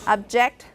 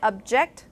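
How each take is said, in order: First: The stress is on the first syllable. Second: The stress is on the second syllable. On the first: It is used as a noun. "Object as a noun" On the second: It is used as a verb. "if you shift the stress to the second syllable"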